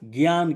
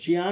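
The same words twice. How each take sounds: First: It starts with a 'g' sound, like gyaan. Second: It starts with a 'j' sound, like jiyaan. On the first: The speaker calls it right. "बल्कि ज्ञान कहते हैं" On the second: The speaker calls it wrong. "तो ज्ञान नहीं कहते हैं"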